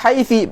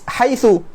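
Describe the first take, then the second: First: The word ends in an i vowel. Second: The word ends in a u vowel. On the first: Still other Arabs always say it this way. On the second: Some Arabs always say it this way.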